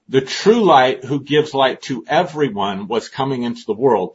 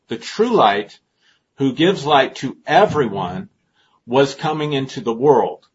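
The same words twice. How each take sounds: First: The sentence is read at a normal, quicker pace. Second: The sentence is read at a slower pace.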